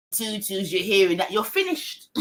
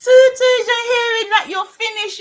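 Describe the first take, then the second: First: Said in the usual way. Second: High, loud, crowing repeat; loud exclamation. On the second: Real, not acted. Same line repeated, exclaiming.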